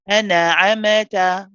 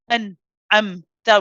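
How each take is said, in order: First: The nasal letters bounce with extra vowel sounds. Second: The sound stops abruptly after each nasal letter. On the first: "We also don't bounce them" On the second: "We don't stop after each each of those letters"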